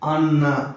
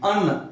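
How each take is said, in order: First: The word ends with a full final vowel. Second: The word is cut short without a final vowel. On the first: The speaker calls it right. "अन्ना पूरा बोलेंगे" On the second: The speaker calls it wrong. "अन्न नहीं बोलेंगे"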